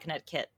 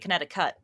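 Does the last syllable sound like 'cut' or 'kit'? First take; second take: kit; cut. First: The last syllable is said like 'kit'. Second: The last syllable is said like 'cut'. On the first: The speaker calls it right. "You usually say kinetic kit" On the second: The speaker calls it wrong. "you don't say kinetic cut"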